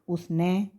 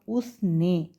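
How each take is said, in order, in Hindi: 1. अंतिम स्वर 'ai' जैसा बोला जाता है। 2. अंतिम स्वर 'e' जैसा बोला जाता है। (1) "कई बार पढ़ने में क्या गलती कर देते हैं, हमने बोल दिया" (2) "जैसे हमने लिखा"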